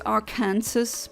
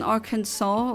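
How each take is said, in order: First: The ending sounds like the word Kansas. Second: The ending sounds like saw, without Kansas. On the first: "I also always pronounce it as Arkansas because it's Kansas" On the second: "Why is it all of a sudden Arkansas?"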